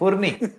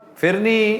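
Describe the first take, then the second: First: The first vowel sounds like 'u'. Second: The first vowel sounds like 'i'. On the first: The speaker calls it right. "ये फुरनी है" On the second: The speaker calls it wrong. "इसका दरअसल तलफ़ुज़ भी गलत है"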